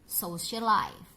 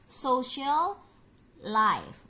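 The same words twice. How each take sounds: First: The l sound is said only once. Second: The l sound is said twice.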